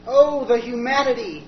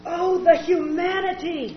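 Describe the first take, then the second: First: Slow anguished wail; Hindenburg survivor cry. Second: Slow anguished cry, hammed-up; melodramatic lip-sync. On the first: Acted. Mitchell in charred 1930s clothes, anguished. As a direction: cry out from the burning wreck. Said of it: "disguised, charred and smoking". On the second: [name] mimicking the Hindenburg reporter, hammed-up cry. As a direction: wail it like the old broadcast. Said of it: "lip-syncs melodramatically".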